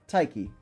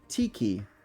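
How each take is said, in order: First: The first vowel sounds like 'eye'. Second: The first vowel sounds like 'ee'. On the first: The speaker calls it wrong. "not Taiki" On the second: The speaker calls it right. "it's pronounced Tiki"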